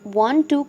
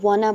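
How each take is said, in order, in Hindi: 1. दोनों शब्द पूरे-पूरे, अलग-अलग बोले जाते हैं। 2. दोनों शब्द मिलकर एक छोटा शब्द बन जाते हैं। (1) "आपने लिखते वक्त वांट टू ही लिखना है" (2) "वो लोग वांट टू को वाना बोलते हैं"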